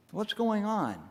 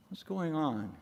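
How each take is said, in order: First: Higher-pitched puzzled question; wondering question. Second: Softer echo of the question; hushed wondering. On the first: Preacher plunged into measureless mystery, wondering aloud in a higher pitch. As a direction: ask it in wonder, pitch lifted. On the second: Preacher plunged into measureless mystery, musing softly to himself. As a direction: let it sink to a quiet musing. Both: Acted.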